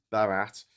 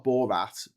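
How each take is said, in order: First: "Barat" with a light first syllable, not "Bor"; correct name Barat. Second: "Borat" with an "or" vowel, as the name to avoid; wrong name Borat. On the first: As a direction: say "Barat" with a reduced first vowel, buh-RAT. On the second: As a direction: say "Borat" with a full BOR first syllable. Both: Shown as a demonstration. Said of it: "not Borat".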